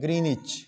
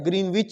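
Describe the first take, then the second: First: The middle w sound is silent. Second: The middle w sound is pronounced. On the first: The speaker calls it right. "इसका सही pronunciation ग्रीनिच है" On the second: The speaker calls it wrong. "ये ग्रीनविच नहीं होता"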